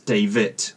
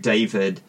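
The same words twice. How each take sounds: First: The name ends with a T sound. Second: The name ends with a D sound.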